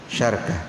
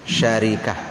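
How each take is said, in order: First: An a follows sh; no vowel follows r. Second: An a follows sh; an i follows r. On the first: "ra-nya disukunkan berarti syarkah" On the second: "ra-nya di kasrah berarti syarikah"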